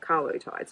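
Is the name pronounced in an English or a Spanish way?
English. The name is pronounced with English-style sounds. "instead of Carlotides"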